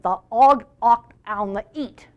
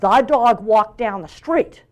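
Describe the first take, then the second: First: The initial consonant sounds are left out. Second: All the consonant sounds are pronounced clearly. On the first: "they'd be hearing" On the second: "If I said"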